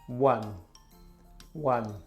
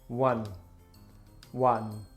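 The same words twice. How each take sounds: Both takes have the same delivery.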